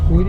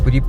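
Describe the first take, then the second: First: The first vowel is held long. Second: The first vowel is kept short. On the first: The speaker calls it wrong. "പൂരി അല്ല" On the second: The speaker calls it right.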